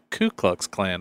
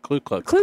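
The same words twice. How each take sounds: First: The first word sounds like 'koo', without an L. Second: The first word sounds like 'clue', with an L. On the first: The speaker calls it right. "it's actually Ku Klux Klan" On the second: The speaker calls it wrong. "not Ku Klux Klan"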